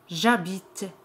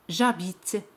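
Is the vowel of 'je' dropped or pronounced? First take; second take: dropped; dropped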